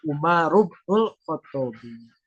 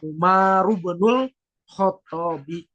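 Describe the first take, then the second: First: The vowel is dropped, linking straight into 'bnul'. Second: The vowel beginning 'ibnu' is pronounced separately. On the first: The alif is dropped between two names. "alif yang ada pada kata ibnun itu dibuang" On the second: This is the underlying form before the rule applies. "Asalnya ibnul Khotobi"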